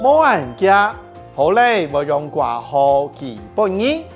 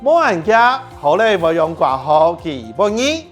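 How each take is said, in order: First: The sentence is said a little slowly. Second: The sentence is said at normal speed.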